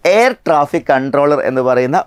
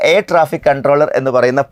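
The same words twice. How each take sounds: The two takes are said the same way.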